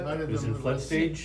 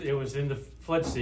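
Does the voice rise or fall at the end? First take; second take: rise; fall. First: It is said as a question, rising. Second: It is said as a statement, falling.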